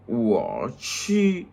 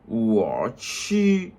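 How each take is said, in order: No difference in how they are said.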